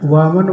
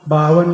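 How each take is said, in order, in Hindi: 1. शब्द की शुरुआत v ध्वनि से होती है। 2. शब्द की शुरुआत b ध्वनि से होती है। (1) "वामन बोलना है" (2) "बावन नहीं बोलना है"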